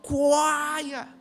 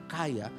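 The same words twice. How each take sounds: First: The word is said with strong, drawn-out emphasis. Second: The word is said plainly, without extra emphasis. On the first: The person is extremely rich. "Itu sudah ada penekanannya" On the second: The person is merely rich. "bukan kaya"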